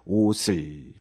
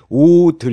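First: The middle consonant sounds like s. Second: The middle consonant sounds like d.

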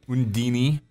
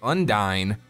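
First: The name ends with a 'deeny' sound. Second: The name ends with a 'dine' sound. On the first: "Both pronunciations actually work with that" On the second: "Undyne and Undini are both"

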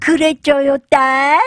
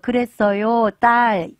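First: It is said in a clipped, babyish voice. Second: It is said in a normal adult voice. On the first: "요렇게, 자기도 악의가 된 듯이 반토막만하게" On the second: "이게 아니라"

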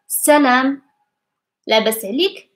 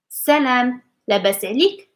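First: The phrase is spoken slowly and carefully. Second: The phrase is spoken at normal speed. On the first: "I will say it slowly" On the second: "like in normal speed"

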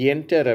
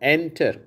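First: A y glide is added before the vowel. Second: The word starts directly with the vowel. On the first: The speaker calls it wrong. "நம்ம இந்தியர்கள் என்டர் அப்படிங்கிறாங்க" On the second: The speaker calls it right. "ஆங்கிலேயர்கள் எப்படி உச்சரிக்கிறாங்க?"

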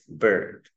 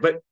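First: The vowel is long. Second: The vowel is short. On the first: The speaker calls it right. "This is a longer er" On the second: The speaker calls it wrong. "we don't say but"

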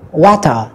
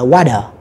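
First: The middle consonant is a clear t sound. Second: The middle consonant is a soft d sound. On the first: "người Anh sẽ đọc là" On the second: "người Mỹ đọc là"

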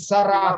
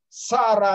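First: The stress is on the last syllable. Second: The stress is on the first syllable. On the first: This is the standard pronunciation. "как положено" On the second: "не любит ударение на последний слог"

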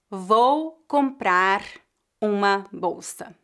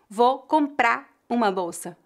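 First: The words are said separately, without linking. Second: The final R of comprar is dropped. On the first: "raramente alguém vai dizer" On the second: "algumas pessoas fariam a redução fonética da letra R"

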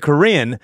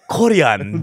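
First: The word is said with a plain English pronunciation. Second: The word is said with a Korean pronunciation. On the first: "But if you just say Korean" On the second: "Unless you say Korean, then it sounds Korean"

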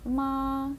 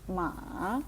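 First: The pitch stays high and level. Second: The pitch dips low and then rises. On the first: "перший тон" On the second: "третій"

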